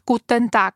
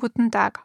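First: It is pronounced firmly and crisply, German style. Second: It is pronounced softly, in an Austrian style. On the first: This is how people in Germany say it. "они более четко произносят" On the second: This is how people in Austria say it. "а мы говорим"

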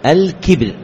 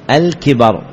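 First: The b is followed directly by r. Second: The b is followed by a short a vowel. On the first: It refers to arrogance. "كسر كافه وسكون بائه" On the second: It refers to old age from a long life. "كسر كافه وفتح بائه"

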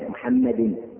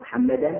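First: The word ends with an i vowel. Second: The word ends with an a vowel. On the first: The word is in the genitive case. "هذا مجرور بالكسرة الظاهرة" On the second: The word is in the accusative case. "هذا منصوب بالفتحة الظاهرة"

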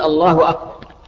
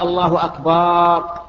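First: The vowel after b is short. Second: The vowel after b is long. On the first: It says God is greater. The speaker calls it right. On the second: It refers to drums. The speaker calls it wrong.

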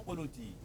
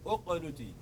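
First: The word starts directly with the q sound. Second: The word starts with a vowel before the q. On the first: The word is joined to the word before it. "لكن إذا وصلنا نبدأ من الميم إلى القاف" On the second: The word begins the utterance. "فإذا بدأت من هنا أقنتي"

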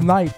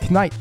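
First: The k at the start is silent. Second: The k at the start is pronounced. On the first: The speaker calls it right. "C'est juste Knight" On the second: The speaker calls it wrong. "tu continues à dire Knight"

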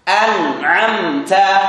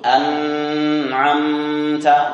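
First: The nasal hum on the n is short. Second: The nasal hum on the n is drawn out. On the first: The speaker calls it right. "Ada, tapi tidak dipanjangkan" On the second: The speaker calls it wrong. "Tidak perlu an'amta. Tidak boleh"

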